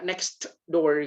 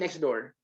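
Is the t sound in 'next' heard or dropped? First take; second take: heard; dropped. First: The t at the end of next is pronounced. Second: The t at the end of next is dropped. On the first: The speaker calls it wrong. "T-nya nggak dibaca, nggak next door gitu, nggak" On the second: The speaker calls it right. "Ini bacanya pasti next door"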